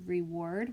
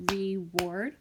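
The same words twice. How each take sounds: First: Said in the usual way. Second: "reward" separated into two beats, re-ward; split into syllables. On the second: Shown as a demonstration. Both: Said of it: "When I clap that out".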